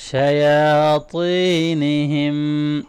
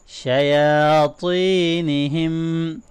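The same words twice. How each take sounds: First: شَيَاطِينِهِمْ with a long ya fatha, a thick ta and a long ya madd; long vowels, heavy ta. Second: شَيَاطِينِهِمْ with both long vowels held and a thick ta; long vowels, heavy ta. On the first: Teacher demonstrating lengthening to students. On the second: Teacher repeating after explaining lengthening. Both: Shown as a demonstration. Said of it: "کھڑی زبر ہے، لمبا کریں گے".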